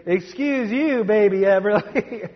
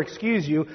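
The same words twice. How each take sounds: First: Put-on high toddler voice saying "Excuse you, baby Everly". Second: Said in the usual way. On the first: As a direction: mimic the little brother, pitched way up. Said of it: "but you may get a".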